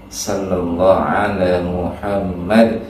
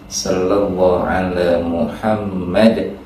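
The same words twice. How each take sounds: The two takes are said the same way.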